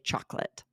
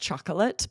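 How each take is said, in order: First: The word is said with two syllables. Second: The word is said with three syllables. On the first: "We almost always drop it" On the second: "is three syllables"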